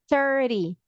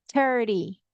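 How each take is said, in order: Both takes have the same delivery.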